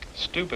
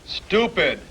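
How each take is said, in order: First: It is said quietly. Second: It is said louder.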